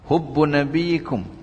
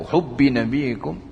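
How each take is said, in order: First: The first word ends with a 'u' vowel. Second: The first word ends with an 'i' vowel.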